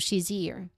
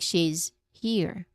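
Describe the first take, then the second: First: The z sound runs straight into the next word. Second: There is a break between the two words. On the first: The speaker calls it right. "The Z sound, it just flows right into it" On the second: The speaker calls it wrong. "you say she's and then pause and then say here"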